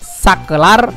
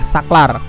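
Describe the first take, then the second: First: The word has three syllables, with e after k. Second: The word has two syllables, with no vowel after k. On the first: The speaker calls it right. "ini kata bakunya" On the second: The speaker calls it wrong. "kata tidak bakunya adalah saklar"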